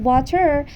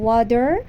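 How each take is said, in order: First: "water" with a Persian accent and a hard T; Iranian Persian accent. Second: "water" in American English, T softened to a D; American accent. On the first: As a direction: say "water" as an Iranian Persian speaker does, crisp T. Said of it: "لهجهٔ فارسی ایرانیه". («water» با لهجهٔ فارسی ایرانی) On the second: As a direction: say "water" the American way, like "wah-der". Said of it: "اما water آمریکاییه". («water» با لهجهٔ آمریکایی) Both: Shown as a demonstration.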